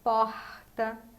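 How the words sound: The R is made at the back of the tongue. "no Rio de Janeiro, é com esse R mais do fundo da língua"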